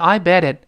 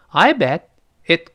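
First: The t of bet runs straight into it. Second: Bet and it are kept apart, with a pause. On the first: The speaker calls it wrong. "而不是I bet it，这个不能这么读啊" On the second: The speaker calls it right. "你看我这么读"

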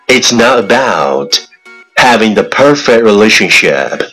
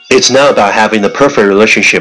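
First: It is said at a moderate, even speed. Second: It is said very fast in one breath. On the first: "let's repeat after me" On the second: "一口气最快语速"

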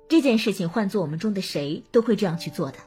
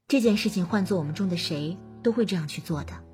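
First: The tone is polite, tactful and somewhat formal. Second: The tone is warm, gentle and reassuring. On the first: Thanks are declined graciously on behalf of the team. "我要礼貌委婉地拒绝谢礼" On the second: A friend is reassured not to feel guilty. "我要贴心的宽慰他"

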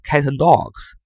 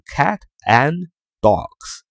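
First: The words run together in one linked stream. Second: Each word is said separately with small breaks. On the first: "就是连读" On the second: "分着读就是"

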